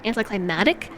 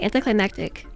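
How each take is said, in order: First: The word has no extra k sound. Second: The word has an extra k sound. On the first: "I think it's anticlimactic" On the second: "I always add the extra c"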